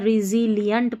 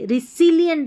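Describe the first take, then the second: First: The middle consonant is a buzzing z sound. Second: The middle consonant is a hissing s sound. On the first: The speaker calls it right. "रिजिलियंट पढ़ना है। एस को ज पढ़ पढ़ रहे हैं" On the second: The speaker calls it wrong. "रिसिलियंट नहीं पढ़ना"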